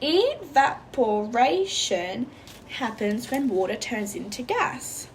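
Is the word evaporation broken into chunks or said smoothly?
chunked. Evaporation is broken into separate syllable chunks. "while still using the chunking for the word evaporation"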